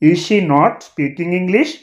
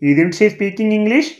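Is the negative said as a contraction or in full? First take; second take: full; contraction. First: The negative is said in full as separate words. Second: The negative is said as one contracted word. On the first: This is the written form. "ఇది రిటన్ లాంగ్వేజ్లో రాస్తాం" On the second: This is the spoken form. "Spoken ఇంగ్లీష్లో చెప్పాలంటే"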